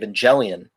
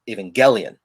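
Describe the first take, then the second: First: The G is soft, as in 'gem'. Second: The G is hard, as in 'go'. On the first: "I pronounced it with the soft G" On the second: "with a hard G"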